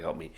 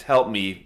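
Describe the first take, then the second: First: Garbled cry for help. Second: Louder, words understandable; clear cry for help. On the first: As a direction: lower and softer, words smeared. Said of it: "It's not exactly, sounds like". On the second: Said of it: "you can understand it's". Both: Acted.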